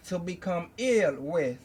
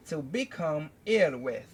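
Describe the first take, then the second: No difference in how they are said.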